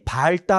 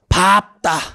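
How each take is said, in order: First: The first syllable ends in an l sound. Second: The first syllable ends in a p sound. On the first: The speaker calls it wrong. "발다 하면 안 돼요" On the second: The speaker calls it right. "잘했지"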